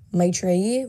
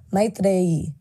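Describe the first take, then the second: First: "Maitreyi" as MY-tray-ee, English tr; preferred pronunciation. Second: Tamil accent. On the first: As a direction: say "Maitreyi" slowly with a plain English tr. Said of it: "That's how I like to say it". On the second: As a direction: say "Maitreyi" slowly as MY-th-ray-ee, Tamil style. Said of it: "put a Tamil accent on it". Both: Shown as a demonstration.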